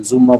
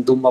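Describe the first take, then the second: First: জুম্মা begun with a buzzing z sound; pronounced with Z. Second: দুম্মা begun with a d sound; pronounced with D. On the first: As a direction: say জুম্মা as "zumma", z not d. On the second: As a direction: say দুম্মা as "dumma", d not z. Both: Shown as a demonstration. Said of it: "দ দিয়ে পড়েন আর জ দিয়ে পড়েন".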